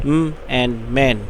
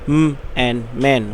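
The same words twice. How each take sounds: Both takes have the same delivery.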